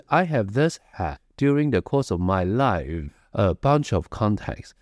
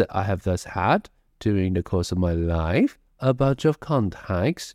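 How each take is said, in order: First: Said in the usual way. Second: "had", "life" and "contacts" each lifted at the end, with pauses; rising phrase endings. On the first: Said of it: "不是". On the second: Shown as a demonstration. Teacher showing students the sentence is not finished, phrase endings raised. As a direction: keep "contacts" hanging upward as if unfinished. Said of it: "把你的尾音稍微的往上扬一下".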